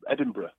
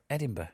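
First: Edinburgh ending in a short "bruh"; Edinburgh pronounced ED-in-bruh. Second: Edinburgh with the last R dropped, "buh"; Edinburgh pronounced ED-in-buh. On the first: Comedian showing host how he says the city, Edinburgh as ED-in-bruh. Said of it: "What do you say?". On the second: Host trying out the city's name, Edinburgh as ED-in-buh. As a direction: say Edinburgh ending in a soft "buh". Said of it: "Is it Edinburgh or Edinburgh?". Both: Shown as a demonstration.

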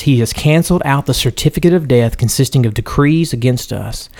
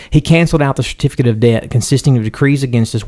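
First: Death instead of debt, in a plain reading voice; misread word. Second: Now clearly "debt", read a bit faster; re-reads the verse with "debt" instead of "death"; corrected reading. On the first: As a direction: reads "death" where "debt" belongs, without noticing. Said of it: "Debt, I said, should say". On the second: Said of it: "I'll read that again". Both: Real, not acted.

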